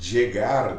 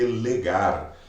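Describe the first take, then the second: First: The word begins with a 'ch' sound. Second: The word begins with an 'l' sound. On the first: The speaker calls it right. "o chegar está mais fácil de entender" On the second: The speaker calls it wrong. "se a gente fosse ler com os fonemas das letras no português"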